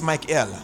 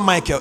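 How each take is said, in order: First: The final syllable is clearly said as 'el'. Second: The final syllable is reduced and unclear. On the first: The speaker calls it right. "it's Michael" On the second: The speaker calls it wrong. "Michael is not Michael"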